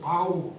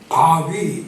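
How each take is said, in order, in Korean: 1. 이름은 'oo' 소리로 끝납니다. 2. 이름은 'wee' 소리로 끝납니다. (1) "그래서 바우 그렇게 하는데" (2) "바위 자꾸 이렇게 발음을 해서"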